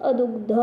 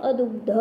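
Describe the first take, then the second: The two takes are said the same way.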